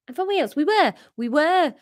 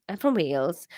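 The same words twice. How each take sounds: First: Put-on high-pitched Welsh accent. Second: Put-on tentative Welsh accent; Welsh, feeling for the accent. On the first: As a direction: try the Welsh lilt higher. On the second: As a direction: try on a Welsh voice. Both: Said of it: "he's Welsh".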